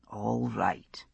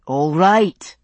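First: Barely voiced, quiet whisper. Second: Said in the usual way. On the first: A narrator's reading. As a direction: whisper the first all right almost to nothing. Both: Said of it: "he said".

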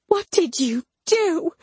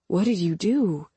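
First: High, strained angry demand; furious accusation. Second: Said in the usual way. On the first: A narrator's reading. Mama stomping down to confront narrator, furious and high. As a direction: pitch it way up, outraged.

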